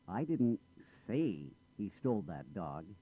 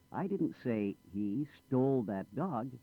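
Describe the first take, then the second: First: The word say carries the main stress. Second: The word stole carries the main stress. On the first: It was implied rather than said. "I didn't say it. I might have implied it" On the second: He did something else with it. "Not stole it. He lost it"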